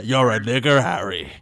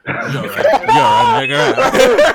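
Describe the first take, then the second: First: Low put-on accent, "Harry" dropped much lower. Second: Very high and loud, cracking up mid-line; laughing through it. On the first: Quoting the wizard line to friends in a low put-on accent. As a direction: deliver the movie line in a deep mock accent. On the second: Pretend. Breaking into laughter while redoing the line for friends. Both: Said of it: "I'm the only one who can actually do that accent".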